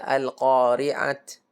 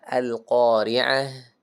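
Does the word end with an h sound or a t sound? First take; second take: t; h. First: The word ends with a t sound. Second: The word ends with an h sound. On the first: The speaker calls it wrong. "Jangan dibaca al-qari'at. Bukan" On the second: The speaker calls it right. "Tapi dibaca al-qari'ah"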